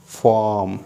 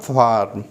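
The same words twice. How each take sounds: First: Farm with silent R, "faam"; British pronunciation. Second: Farm with a clear R before the M; R pronounced. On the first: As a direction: drop the R in Farm. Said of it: "then R will be silent". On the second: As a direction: sound the R in farm. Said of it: "not farm". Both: Shown as a demonstration.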